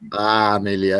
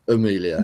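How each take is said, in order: First: The name begins with a full 'a' vowel. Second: The name begins with a weak 'uh' vowel. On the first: This is how other Singaporeans say it. "Some would be Amelia" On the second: This is how the speakers themselves say it. "we would pronounce it with an uh"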